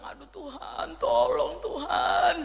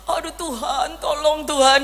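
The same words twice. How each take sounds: First: Retold desperate prayer. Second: Teasing singsong imitation of a prayer; mock her plea the way a cheeky child does. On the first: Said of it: "Saya bilang". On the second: Son teases his mother by copying her prayer, mocking. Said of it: "Tapi dengan nada meledek".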